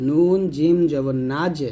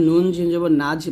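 First: নাজ ending with a bounced, echoing জিম; teacher models নাজ with a crisp qalqala jolt; correct qalqala. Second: নাজ with the জিম closed flat, no echo; rushed, unbounced নাজ; wrong qalqala take. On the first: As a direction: give the জিম in নাজ a clear qalqala rebound. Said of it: "বলতে হবে". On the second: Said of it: "বলবেন না". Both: Shown as a demonstration.

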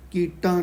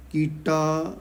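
First: ਕੀਟਾਂ with a nasalised final vowel; wrong nasal ending. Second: ਕੀਟਾ with an open oral final vowel; no nasal ending. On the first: Retold or imitated. Teacher quotes village congregations' reading, ਕੀਟਾਂ with nasal ending. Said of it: "ਕੀਟਾਂ ਬਿੰਦੀ ਨਹੀਂ ਲਾਉਣੀ". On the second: Shown as a demonstration. Teacher corrects congregations' reading, ਕੀਟਾ without nasal ending. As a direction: end ਕੀਟਾ without any nasal sound. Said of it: "ਬਿੰਦੀ ਨਹੀਂ ਲਾਉਣੀ".

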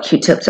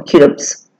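First: Said in the usual way. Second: "Q-tips" run together as a playful nickname, second vowel altered; pet pronunciation of Q-tips. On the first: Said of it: "or I like to call them". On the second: Shown as a demonstration. Makeup artist sharing her pet name, "Q-tips" said playfully altered. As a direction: say "Q-tips" as a cute, slurred pet word. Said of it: "I like to call them Q-tips".

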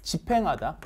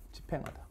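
First: Said in the usual way. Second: 집행하다 breathed with no voice; whispered repeat. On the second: Shown as a demonstration. Teacher whispering 집행하다 as a repeat cue. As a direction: whisper 집행하다 for the class to echo. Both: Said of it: "시작".

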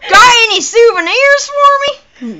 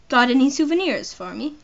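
First: Loud, high redneck voice; exaggerated country redneck, loud and high; redneck accent. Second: Lightly attempted British accent; British accent, unforced and conversational. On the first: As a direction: holler it like a hammed-up redneck. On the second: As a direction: ask it in a modest British voice. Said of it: "How do I do a British accent?".

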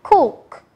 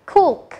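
First: "Cook" with a long clear "oo"; oo sound in cook. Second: "cook" repeated, short and clipped with a falling tune; oo sound in cook. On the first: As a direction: say "Cook" slowly, stretching the "oo". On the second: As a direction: echo "cook" briskly. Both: Shown as a demonstration. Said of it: "được phát âm là U".

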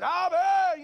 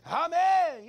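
First: Put-on loud, high Hispanic-accented amen; Hispanic accent shout. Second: Put-on loud, high amen in a Hispanic accent. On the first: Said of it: "that Hispanic accent". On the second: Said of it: "when he yelled out, "Amen," you know, that Hispanic accent".

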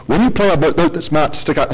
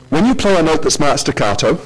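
First: Put-on a half-hearted German accent on 'when you play a note'; failed German accent. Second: Said in the usual way. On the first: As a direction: attempt a German accent, then give up on it. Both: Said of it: "sorry, I can't do a German accent".

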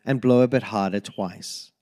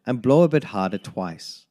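Both takes have the same delivery.

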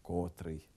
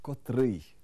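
First: Котрий stressed on the first syllable, кОтрий; wrong stress. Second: Котрий stressed on the last syllable, котрИй; correct stress. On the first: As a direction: say котрий with stress on ко, much softer and lower. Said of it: "Неправильно". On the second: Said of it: "Правильно". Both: Shown as a demonstration.

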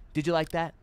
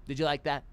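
The two takes are said the same way.

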